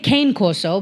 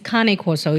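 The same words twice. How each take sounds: First: The name is said with an American pronunciation. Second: The name is said with an Italian pronunciation. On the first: The speaker calls it wrong. "Americans say Cane Corso" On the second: The speaker calls it right. "the real pronunciation is Cane Corso"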